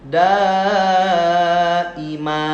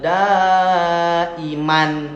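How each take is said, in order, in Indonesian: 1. Kata itu berakhir dengan vokal a panjang. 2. Kata itu berakhir dengan bunyi n. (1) "Waqaf namanya jadi daima, dua harokat" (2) "dibacanya kan gitu"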